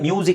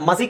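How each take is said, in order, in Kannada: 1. ಮೊದಲ ಭಾಗ ಜಾರುವ 'myoo' ಶಬ್ದ. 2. ಮೊದಲ ಭಾಗ ಸರಳ 'ma' ಶಬ್ದ. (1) "ಅದು ಮ್ಯೂಸಿಕ್ ಅಂತಲೇ ಬರುತ್ತೆ" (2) "ಎಲ್ಲ ಮಸಿಕ್ ಅಂತ ಬರಲ್ಲ"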